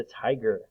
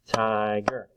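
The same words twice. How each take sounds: First: Said in the usual way. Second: "tiger" in two drawn-out, level beats; split into syllables. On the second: Shown as a demonstration. Teacher clapping syllables for children, "tiger" split in two. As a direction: sound out "tiger" part by part. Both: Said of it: "Let's do it".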